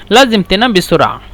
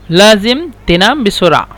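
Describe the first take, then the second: First: Said in the usual way. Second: Measured, with the words set apart. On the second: Shown as a demonstration. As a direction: say it word by word for learners. Teacher repeats phrase slowly for learners.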